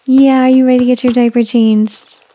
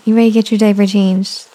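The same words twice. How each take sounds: First: Higher, louder sing-song question. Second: Said in the usual way. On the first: Real, not acted. Asking baby again.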